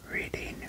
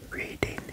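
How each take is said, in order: Both takes have the same delivery.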